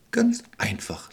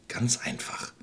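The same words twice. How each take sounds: First: Slow, calm reassurance. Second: Soft tempting whisper; sly whisper. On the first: Expert answers the witch, slow and calm. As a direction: settle it calmly and slowly. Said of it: "antwortete er ruhig". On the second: Witch lures the children, sly whisper. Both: Acted.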